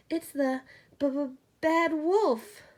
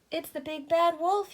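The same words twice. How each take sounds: First: Very slow, stuttering, higher frightened pig; scared pig names the wolf, chattering; teeth chattering. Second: Much higher, louder cry of fright; alarmed cry. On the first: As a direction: stammer through chattering teeth. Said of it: "Boris chattered". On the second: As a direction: cry out the danger. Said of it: "he cried". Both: A narrator's reading.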